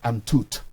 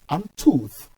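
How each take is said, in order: First: The word ends with a hard 't' sound. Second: The word ends with a soft 'th' sound. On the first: The speaker calls it wrong. "not ... toot" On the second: The speaker calls it right. "remember it is ... tooth"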